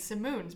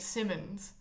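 First: The second syllable has a long oo vowel. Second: The second syllable has a short, reduced vowel. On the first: "that's the proper like Flemish way of saying it" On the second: "some people in my family feel very strongly about saying it Simmons"

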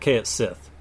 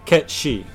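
First: The name ends with a 'sith' sound. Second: The name ends with a 'she' sound. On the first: "For a long time, I said it Kaet Sith" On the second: "I say Ketshi"

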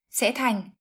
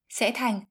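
Both takes have the same delivery.

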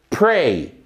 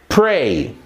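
No difference in how they are said.

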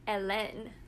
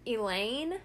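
First: The name is pronounced the French way. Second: The name is pronounced like English Elaine. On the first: This is the name's actual form. The speaker calls it right. "the French version of Helen" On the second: This is how the show says it. The speaker calls it wrong. "in the show they say Elaine"

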